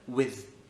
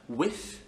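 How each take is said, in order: First: The final th is voiced, with vocal cords. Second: The final th is voiceless, without vocal cords. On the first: "avec corde vocale" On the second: "sans corde vocale"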